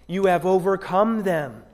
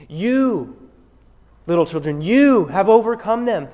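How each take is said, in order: First: Said in the usual way. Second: You said higher and apart, then You again pitched high and louder; stress on You. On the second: Shown as a demonstration. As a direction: lean hard on You each time. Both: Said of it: "the you is emphatic".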